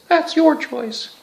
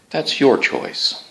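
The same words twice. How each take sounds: First: It is said in a higher voice. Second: It is said in a normal voice.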